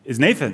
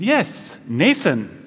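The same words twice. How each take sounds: First: Said in the usual way. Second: Badly faked Danish accent, "Nathan" as NAY-sun. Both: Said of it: "that was not a good Denmark accent".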